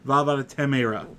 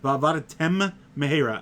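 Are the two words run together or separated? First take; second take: run together; separated. First: The two words are run together. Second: The two words are clearly separated. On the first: The speaker calls it wrong. "and not" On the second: The speaker calls it right. "you have to enunciate it properly"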